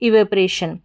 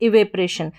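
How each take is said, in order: The two takes are said the same way.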